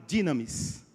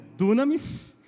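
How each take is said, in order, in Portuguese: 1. A primeira vogal soa como 'ee'. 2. A primeira vogal soa como 'oo'. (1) "Eu aprendi no seminário como dinamis" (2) "Alguns vão ler como dunamis"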